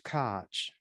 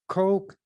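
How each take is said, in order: First: The name ends in a throaty German sound. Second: The name rhymes with the word coke. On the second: "Some people pronounce it who's who has that as a name"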